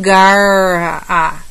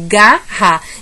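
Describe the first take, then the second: First: The R ends the first syllable; A stands apart. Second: The R starts the last syllable with A. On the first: The speaker calls it wrong. "falar gar-a e falar o A separado" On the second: The speaker calls it right. "O R empurra a letra A"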